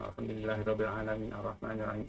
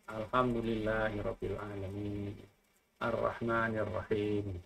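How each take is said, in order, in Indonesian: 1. Dibaca sembarangan, seperti bergumam sendiri. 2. Dibaca pelan dan khidmat, seperti pujian yang sungguh-sungguh. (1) "itu tidak sopan" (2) "Ketika memuji, ya memujilah"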